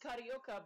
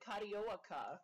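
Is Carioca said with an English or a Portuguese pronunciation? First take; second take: English; Portuguese. First: The word is said with an English pronunciation. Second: The word is said with a Portuguese pronunciation. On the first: This is how the speaker expected it to sound. "I thought it was Carioca" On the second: This is how Portuguese speakers say it. "but they said Carioca"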